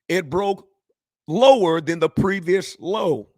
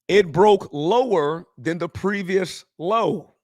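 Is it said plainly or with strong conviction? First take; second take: strong conviction; plainly. First: It is said forcefully, with strong conviction. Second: It is said plainly, without extra conviction.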